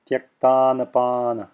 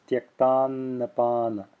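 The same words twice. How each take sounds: First: Tyaktannapana with a short n, not held; unextended n. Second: Tyaktannapana with the first n held a little; extended first n. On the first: Teacher showing how it would sound, unextended n in tyaktannapana. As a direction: pass straight through the n in tyaktannapana. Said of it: "if I wasn't extended, extending it". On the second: Teacher showing the subtle difference, extended first n in tyaktannapana. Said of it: "But I am extending it". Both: Shown as a demonstration.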